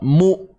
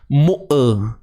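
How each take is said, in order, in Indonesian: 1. Bunyi berhenti tiba-tiba tanpa vokal tambahan. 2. Bunyi vokal tambahan mengikuti konsonan yang tertahan. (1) "bunyinya terputus" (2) "jangan kita timbulkan satu lagi bunyi ataupun uh, kita kata tawallud"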